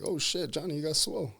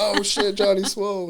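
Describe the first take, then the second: First: Higher, impressed exclamation; light retold amazement; mock surprise. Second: Much higher and louder, hyped nickname call; excited group call-out; crowd cheering. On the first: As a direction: imitate the friend's amazed reaction. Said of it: "it's like". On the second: Retold or imitated. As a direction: shout it like a whole team joining in. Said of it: "And everybody's like".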